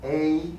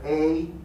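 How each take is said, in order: First: The vowel glides upward like a diphthong. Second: The vowel glides upward like a diphthong.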